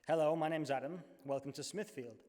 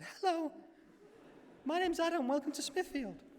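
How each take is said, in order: First: It is said in a theatrical voice, lower pitch. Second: It is said in a very high pitch. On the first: "in my most actory voice" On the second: "I might as well go for it"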